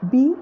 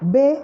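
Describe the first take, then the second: First: The letter name ends in an 'ee' vowel. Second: The letter name ends in an 'ay' vowel. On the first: This is the English letter name. "നമ്മൾ A ബി സി ഡി ഇ F അങ്ങനെയല്ലേ പഠിക്കുന്നത്" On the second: This is the German letter name. "ഇവിടെ അവർ പഠിപ്പിക്കുന്നത്"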